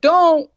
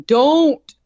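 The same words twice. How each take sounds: First: Loud, high shout of Don't; dad yelling at the boyfriend not to open the trunk. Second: A louder shout of Don't; dad trying to stop the boyfriend. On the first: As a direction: yell it as a warning. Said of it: "my sad dad was like". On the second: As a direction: shout a quick warning. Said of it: "my dad's trying to scream at him". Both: Retold or imitated.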